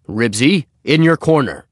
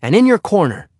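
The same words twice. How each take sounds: First: A higher, louder stern father commanding; father's stern order. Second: Put-on a much higher, louder boy's voice giving orders; boy ordering the dog. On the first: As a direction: order the dog to its corner like a stern dad. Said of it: "ordered Mister Huggins". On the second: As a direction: send the dog back firmly, high and loud. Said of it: "said Henry". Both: A narrator's reading.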